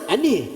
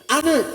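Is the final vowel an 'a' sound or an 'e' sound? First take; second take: e sound; a sound. First: The final vowel sounds like 'e'. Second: The final vowel sounds like open 'a'.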